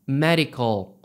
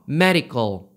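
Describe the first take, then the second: First: It is said with English pronunciation. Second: The same.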